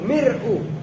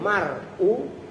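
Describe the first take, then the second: First: The first vowel is a front i. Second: The first vowel is an open a. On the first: "Boleh mir'u" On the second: "boleh mar'u"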